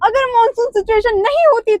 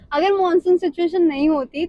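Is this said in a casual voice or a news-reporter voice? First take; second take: news-reporter; casual. First: It is said in a formal news-reporter voice. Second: It is said in an ordinary, casual speaking voice. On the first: "journalist चाहिए हमें" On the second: "फिर मैं normal बोल देती हूँ।"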